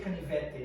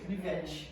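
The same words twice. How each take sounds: First: The final t is a plain t sound. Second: The final t sounds like ch. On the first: This is how people from the north say it. "We don't say canivete" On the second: This is how people in the speaker's region say it. "we say canivete"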